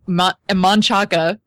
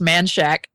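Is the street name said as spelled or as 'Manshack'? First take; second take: as spelled; Manshack. First: The name is said the way it is spelled. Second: The name is said as 'Manshack'. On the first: "there's Manchaca" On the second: "but it's pronounced Manshack"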